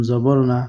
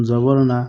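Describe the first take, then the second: Both takes have the same delivery.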